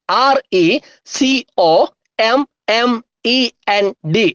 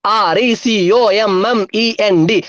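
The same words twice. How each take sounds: First: Each letter stretched and set apart; measured letter-by-letter spelling; slow spelling. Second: Letters joined in one run; quicker, even spelling chant; speedy spelling. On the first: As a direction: dictate the letters slowly with gaps. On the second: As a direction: rattle off the letters without a break. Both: Shown as a demonstration. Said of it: "സ്പീഡിൽ പറഞ്ഞേ".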